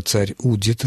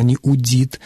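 First: Удит with the stress on у; stress on first syllable. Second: Удит with the stress moved onto дит; stress on last syllable. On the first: Expert gives listeners the correct form, удит stressed on у. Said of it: "он ещё говорил об ударении в глаголе". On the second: Expert quotes the presenter's slip, удит stressed on дит. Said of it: "телевизионный ведущий допустил ошибку". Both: Shown as a demonstration.

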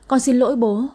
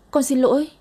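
First: A touch of crying in the apology; tearful apology. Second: Higher, breaking plea; daughter's apology rising higher through tears; rising tearful apology. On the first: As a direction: beg forgiveness, mildly tearful. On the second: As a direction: push the apology up into a cry. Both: A narrator's reading. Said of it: "vừa sợ vừa khóc nức nở".

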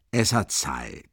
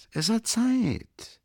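First: Said in the usual way. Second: Drawn-out high. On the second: Acted. Repeat with mock drawl.

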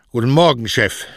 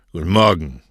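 First: Higher, louder morning greeting; repeated greeting. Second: Gruff, curt morning greeting; grunted greeting. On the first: Postman repeats his greeting to the boss, dutifully raised voice. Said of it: "forderte ihn dann auf, seinen Gruß zu wiederholen". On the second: Boss answers the postman's greeting, grunting. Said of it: "grunzte Cosme". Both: A narrator's reading.

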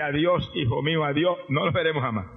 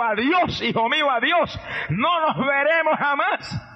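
First: Lower, softer echo of the farewell; the son repeats it under his breath, hurt; a lightly voiced, hushed replay of mother's words; quiet retold farewell. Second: Mother pressing a final goodbye, raised and slow; emphatic farewell. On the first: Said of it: "Y a mí me dice". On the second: Acted. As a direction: lay the goodbye on him with weight.

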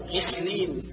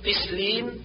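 First: غسلين opening on a voiced gargled gh; true ghayn. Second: قسلين opening on a q stop; ghayn as qaf. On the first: Teacher corrects, غسلين with continuous gh. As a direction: let the غ flow in غسلين. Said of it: "والصواب". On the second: Teacher shows the error, قسلين with q. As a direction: turn the غ of غسلين into ق. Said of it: "جعل الغين قافا". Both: Shown as a demonstration.

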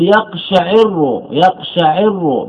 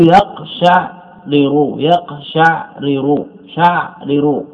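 First: يقشعر slowly as yaq-sha-'IR-ru; kasra on the ayn. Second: يقشعرر very slowly as yaq-sha'-ri-ru; original unmerged form. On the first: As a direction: give يقشعر an i after the ayn and a doubled r. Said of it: "بكسر العين". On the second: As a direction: split يقشعرر at the vowelless ayn, two separate r's. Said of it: "أردنا إدغام الراء". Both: Shown as a demonstration.

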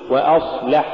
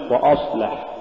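First: وأصلح with a thin start before the heavy s; light hamza. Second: وأصلح with a thick dark start; wrongly heavy hamza. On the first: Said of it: "قل". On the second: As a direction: thicken the vowels before the sad in وأصلح. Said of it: "ولا تقل". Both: Shown as a demonstration.

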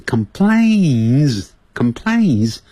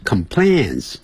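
First: "complains" with a long, stretched A as in "day"; 发A的音. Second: "complains" with a short, open "an" as in "plan"; 错误发音. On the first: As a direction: draw out the A in "complains", slowly. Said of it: "发A的音". (把complains里的A拉长念成“ei”) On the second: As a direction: say "complains" wrongly, last syllable like "plans". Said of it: "这个词可不要念成complains". (把complains错念成短开口的“plans”) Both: Shown as a demonstration.

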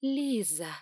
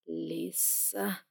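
First: "Лиза" with a crisp voiced z; clear z. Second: "Лиса" with a lisped s; slushy sh for s. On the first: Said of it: "и я поправила". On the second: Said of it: "чуть шепеляво произнёс он". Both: A narrator's reading.

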